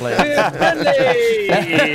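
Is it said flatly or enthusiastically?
enthusiastically. It is said with more enthusiasm.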